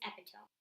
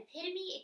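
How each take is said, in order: First: EPITOME read as it is spelled, epi-tome; mispronunciation. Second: EPITOME named as the tricky word; word being quoted. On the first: Reader confessing how a book word came out, mispronunciation. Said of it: "it came out as epitome". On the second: Reader recalling a word she tried to say, quoted word. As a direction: set up EPITOME as the word once misread. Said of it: "The first time I said". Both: Shown as a demonstration.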